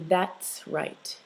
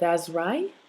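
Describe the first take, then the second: First: The final t sound is clearly pronounced. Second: The final t sound is dropped. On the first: The speaker calls it right. "articulate that last sound if it's a consonant" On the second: The speaker calls it wrong. "instead of"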